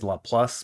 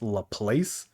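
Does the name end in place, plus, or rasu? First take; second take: plus; place. First: The name ends with a plus sound. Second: The name ends with a place sound. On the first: The speaker calls it right. "I think that's the better way of saying it" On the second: The speaker calls it wrong. "the English dub pronounces it as La Place, which I think is fucking stupid"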